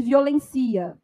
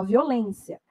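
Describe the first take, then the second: First: "violencia" with the stress moved to "len", no accent; teacher saying "violencia" stressed on "len" as the wrong form. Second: "violência" stressed on "lên" with a closed e, as written; teacher saying "violência" with the stress firmly on "lên"; correct stress. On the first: Teacher shows students the wrong, unaccented form, stressing "len". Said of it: "não existe violencia". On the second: Teacher gives students the correct form, stress on "lên". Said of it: "Só violência". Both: Shown as a demonstration.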